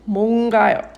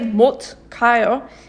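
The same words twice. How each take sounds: First: The first word ends in an ng sound. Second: The first word ends in a t sound. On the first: The speaker calls it right. "naturally it's 못 가요" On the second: The speaker calls it wrong. "If you say 못 가요, people will still understand you"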